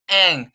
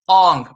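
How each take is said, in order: First: The vowel is an open 'ah' sound. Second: The vowel is a rounded 'aw' sound. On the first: This is the name's original pronunciation. The speaker calls it right. "the proper pronunciation is Ang" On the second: This is how the film's actor said the name. The speaker calls it wrong. "actor said Ong"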